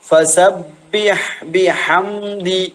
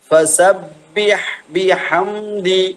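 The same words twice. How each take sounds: The two takes are said the same way.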